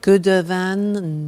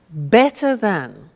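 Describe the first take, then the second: First: Slow, deliberately wrong answer; slow mock-wrong gooder than; wrong form. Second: Said in the usual way. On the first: Shown as a demonstration. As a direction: play the student who gets it wrong. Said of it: "No, no, no". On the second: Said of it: "good is an exception".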